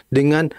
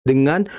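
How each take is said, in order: No difference in how they are said.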